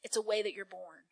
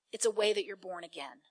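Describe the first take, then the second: First: Soft. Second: Soft, with born again as the point; adding again. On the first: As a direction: quietly, voice dropped low. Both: Shown as a demonstration. Preacher to congregation, soft and low.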